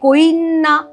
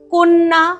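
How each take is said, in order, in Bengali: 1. 'n'-এর আগে একটি অতিরিক্ত 'i' ধ্বনি আসে। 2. এটি অতিরিক্ত 'i' ধ্বনি ছাড়া বলা হয়।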